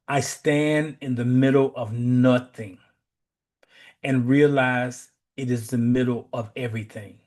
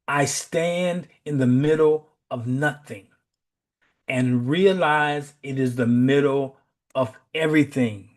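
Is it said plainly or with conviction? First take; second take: plainly; with conviction. First: It is said plainly, without special conviction. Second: It is said firmly, with strong conviction.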